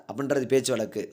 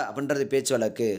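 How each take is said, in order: Both takes have the same delivery.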